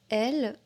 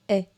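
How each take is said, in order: First: The word is said in full with its final L. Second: The word is reduced to a single vowel sound. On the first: "Au lieu de dire elle" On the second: "parfois je dis est. Je ne prononce pas le elle"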